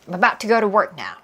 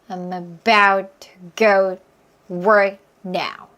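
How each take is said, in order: First: The sentence is said fast. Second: The sentence is said slowly. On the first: "점점 빠르게" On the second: "천천히 해볼까요?"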